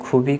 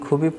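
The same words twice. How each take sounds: The two takes are said the same way.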